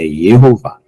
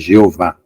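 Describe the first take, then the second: First: The name begins with a Y sound. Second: The name begins with a J sound. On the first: The speaker calls it right. "É Yehová" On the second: The speaker calls it wrong. "a pronúncia não é J, Jeová"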